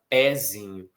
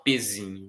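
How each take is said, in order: First: The first vowel is open. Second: The first vowel is closed. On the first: The speaker calls it right. "a gente fala pezinho ... com essa vogal aberta" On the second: The speaker calls it wrong. "a gente não fala pezinho"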